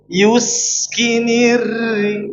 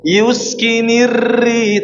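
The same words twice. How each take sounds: First: The r is trilled lightly with little vibration. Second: The r is trilled strongly with much vibration. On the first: The speaker calls it right. "tapi yuskinirri" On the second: The speaker calls it wrong. "jangan sampai bergetar banget, jangan sampai yuskinirri"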